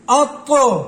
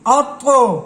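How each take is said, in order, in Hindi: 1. अंतिम व्यंजन गूंजते झटके के साथ छोड़ा जाता है। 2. अंतिम व्यंजन गूंजते झटके के साथ छोड़ा जाता है।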